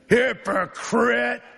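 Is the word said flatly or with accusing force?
accusing. The word is spat out with accusing force. It is meant as an insult. The speaker calls it right.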